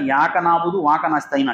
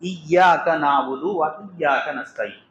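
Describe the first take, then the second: First: The opening 'i' sound is dropped: yaka, waka. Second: Each iyyaka begins with a clear 'i' sound. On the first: The speaker calls it wrong. "ఈ యొక్క మాటని చెప్పలేక ... అంటున్నాడు" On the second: The speaker calls it right. "ఆడికి సూర్య ఫాతిహా నేర్పిస్తున్నాం"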